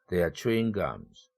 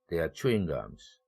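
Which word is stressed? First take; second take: chewing; chewing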